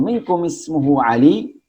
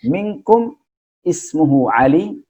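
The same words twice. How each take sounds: First: Minkum ismuhu Ali rising as a question; questioning tune. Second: Minkum ismuhu Ali asked with a rising question tune. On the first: (intonasi bertanya) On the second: (intonasi bertanya yang naik di akhir) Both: Shown as a demonstration. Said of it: "Intonasi kan nanya tuh".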